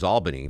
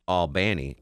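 First: It uses the New York pronunciation of the name. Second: It uses the southern Georgia pronunciation of the name. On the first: It names the capital of New York. "I grew up knowing the capital of New York was Albany" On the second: It names the town in southwest Georgia. "but I pronounced the southern city Albany"

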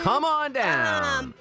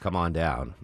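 First: It is said with lively game-show inflection. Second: It is said plainly without lively inflection. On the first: The delivery gives a clue to its source. "like the inflection helped" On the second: The delivery gives no clue to its source. "if I had just said"

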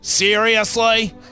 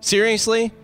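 First: It is said in an Australian accent. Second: It is said in the speaker's usual accent.

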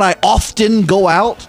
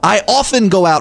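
First: The T sound in often is pronounced. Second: The T sound in often is silent. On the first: The speaker calls it wrong. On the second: The speaker calls it right. "The T is silent"

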